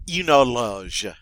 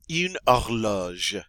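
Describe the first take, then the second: First: Horloge slow with no H, "orloge"; silent H. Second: Horloge again slowly with no H sound; silent H. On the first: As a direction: say horloge slowly, dropping the H. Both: Shown as a demonstration. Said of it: "the H is silent".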